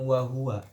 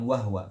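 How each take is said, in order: First: The h is followed by a vowel. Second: The h has no vowel after it. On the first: The speaker calls it right. "dia pasti bacanya dengan wahwa" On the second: The speaker calls it wrong. "bukan wahwa"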